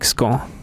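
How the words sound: It is said with a French-like accent. "but like more French, like scone"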